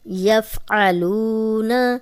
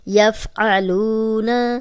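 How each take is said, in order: No difference in how they are said.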